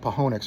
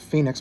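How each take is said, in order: First: The city name is pronounced a quirky, nonstandard way. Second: The city name is pronounced the standard way. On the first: This is a personal joke pronunciation. "but I call it Pahonix" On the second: This is how most people say it. "you normal people pronounce it Phoenix"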